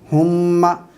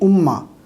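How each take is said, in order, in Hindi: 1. शुरुआत में साफ़ ह की आवाज़ है। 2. शुरुआत स्वर से होती है, ह नहीं। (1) "ये है हा के साथ हुम्मा" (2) "इसे बाल लोग हमज़ा के साथ पढ़ते हैं"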